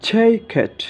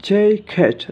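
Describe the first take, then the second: No difference in how they are said.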